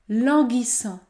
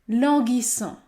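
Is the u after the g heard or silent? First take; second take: silent; silent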